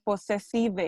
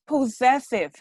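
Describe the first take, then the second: First: "possessive" with a Spanish-style ending, po-se-SEE-veh; mispronunciation. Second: "possessive" stressed on the middle syllable, silent final e; correct pronunciation. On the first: Teacher imitating how students said it, mispronunciation. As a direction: sound out the final e in "possessive". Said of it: "I heard that way". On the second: Teacher correcting students' word, correct pronunciation. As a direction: say "possessive" as po-ZESS-iv. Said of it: "people that tends to mention possessive". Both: Shown as a demonstration.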